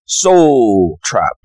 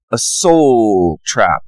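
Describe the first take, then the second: First: Soul trap with a South African accent. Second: Said in the usual way. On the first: Shown as a demonstration. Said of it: "I'll try to do the South African accent". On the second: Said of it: "I'll try to do the South African".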